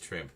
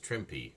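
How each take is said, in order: First: The name ends without a final vowel sound. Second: The name ends with an added final vowel sound. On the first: The speaker calls it wrong. "Everybody says Trimp" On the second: The speaker calls it right. "actually you do pronounce the e in this case"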